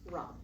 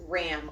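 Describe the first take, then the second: First: The vowel sounds like the one in 'father'. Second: The vowel sounds like the one in 'cat'. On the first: The speaker calls it right. "pronounce it as ROM" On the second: The speaker calls it wrong. "not as RAM, like the animal"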